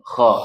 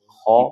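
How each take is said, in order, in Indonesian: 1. Bunyi kha itu bergetar seperti mendengkur. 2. Bunyi kha itu tipis, tidak ada getarannya. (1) "Yang ngoroknya apa sih? Kalau kha" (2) "kha itu enggak ada, tipis"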